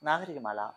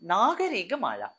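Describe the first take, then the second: First: The name is said plainly, without stretching. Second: The name is stretched out and drawn long. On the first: The speaker calls it wrong. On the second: The speaker calls it right.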